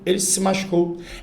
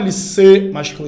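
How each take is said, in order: First: The pronoun se is said weakly. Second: The pronoun se is said strongly. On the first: The speaker calls it right. "eles são mais fracos foneticamente" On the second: The speaker calls it wrong. "Você não fala"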